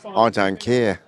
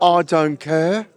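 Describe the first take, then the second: First: Put-on lower, lightly done Brummie accent; second try at a Brummie accent. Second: Put-on slow, drawn-out Brummie accent that slips toward Australian; mock Brummie accent. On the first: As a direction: have another go at "I don't care" in a Brummie accent. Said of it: "I mocked your accent like that". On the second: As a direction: stretch out "I don't care" in a half-Australian Brummie accent. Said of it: "That sounds a little bit Australian".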